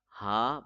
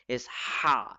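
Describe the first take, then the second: First: The h sound is soft and breathy. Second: The h sound is sharp from the throat. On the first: The speaker calls it wrong. "Some people call it ha, but that is totally wrong" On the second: The speaker calls it right. "it is sharp, as sharp as a knife"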